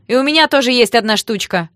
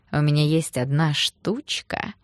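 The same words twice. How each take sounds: First: Loud, high, furious retort; piercing yell. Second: Slow, teasing innuendo; suggestive come-on. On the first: A narrator's reading. Sister answers the thug's come-on, yelling piercingly. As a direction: throw it back at them, yelling. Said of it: "раздался пронзительный вопль". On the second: Acted. Thug propositions the girl, slow and suggestive. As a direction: draw it out suggestively.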